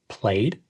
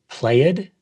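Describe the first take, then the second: First: The ending joins the word as one syllable. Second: The ending is said as an extra syllable. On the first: The speaker calls it right. "The ed ending is not a separate syllable" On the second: The speaker calls it wrong. "add extra syllables where they don't belong"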